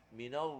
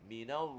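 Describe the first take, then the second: The two takes are said the same way.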